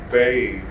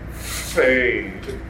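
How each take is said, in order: First: The F is said with little air. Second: The F is said with lots of air. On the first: The speaker calls it wrong. "it'll sound like fade" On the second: The speaker calls it right. "unless we put a lot of air"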